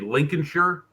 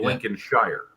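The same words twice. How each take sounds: First: It is said the British way, with a reduced ending. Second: It is said the American way, with a full ending. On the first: "where you say Lincolnshire" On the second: "we say Lincolnshire"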